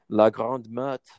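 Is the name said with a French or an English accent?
French. The name is said with a French pronunciation.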